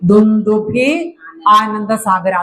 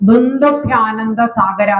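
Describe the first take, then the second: First: The two words are said separately, unfused. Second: The two words are fused into one sound. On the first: "ഇനി അഥവാ പിരിച്ചാൽ" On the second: "ഒന്നുകിൽ അങ്ങനെ പറയണം"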